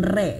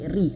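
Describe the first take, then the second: First: The vowel sounds open, like 'e'. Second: The vowel sounds close, like 'i'. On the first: The speaker calls it wrong. "jangan re ya" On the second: The speaker calls it right. "tapi ri, artikulasi i-nya harus disempurnakan"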